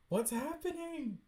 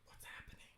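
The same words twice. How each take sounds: First: High-pitched question. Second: Hushed, whispered question. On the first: Reader puzzled by the comic's events, high-pitched. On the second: Reader puzzled by the comic's events, whispering. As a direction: whisper it under your breath. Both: Real, not acted.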